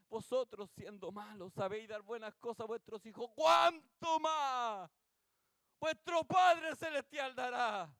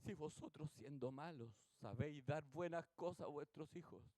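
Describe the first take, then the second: First: Scripture rising to a loud, high climax; building preaching. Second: Lower, softer recitation; measured scripture quote. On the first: Repite el versículo como remate. (versículo que crece hasta proclamarse a toda voz) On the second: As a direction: recite the verse with restraint. Recita el versículo, primera vez. (versículo recitado en voz baja y contenida) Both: Real, not acted.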